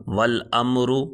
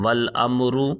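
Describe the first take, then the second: Both takes have the same delivery.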